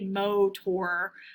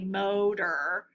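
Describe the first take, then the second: First: The last syllable sounds like 'or'. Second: The last syllable sounds like 'er'. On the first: The speaker calls it wrong. "We don't say motor" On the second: The speaker calls it right. "We say motor. Really, the T sounds like a D as well"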